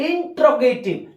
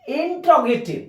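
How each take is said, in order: The two takes are said the same way.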